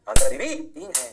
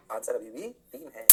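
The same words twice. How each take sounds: First: Sudden loud burst of insistence; much louder, forceful restatement; emphatic answer repeat. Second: Slow, low-pitched and softer; slow, subdued statement of the answer; measured answer reveal. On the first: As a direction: hammer the answer home loudly. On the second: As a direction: drop low and spell the answer out slowly. Teacher reveals answer, first take. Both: Shown as a demonstration.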